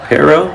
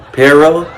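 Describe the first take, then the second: First: Perro again with a flat English r and a laugh; Perro, laughing, r still not trilled; can't roll the r. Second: Perro with a flat English r, no trill; Perro, unsure, the r not rolled; can't roll the r. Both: Shown as a demonstration. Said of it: "I can't say my R's like that".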